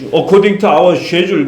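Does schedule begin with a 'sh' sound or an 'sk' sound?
sh sound. Schedule begins with a 'sh' sound. The speaker calls it right. "according to our schedule 그래야 되는데"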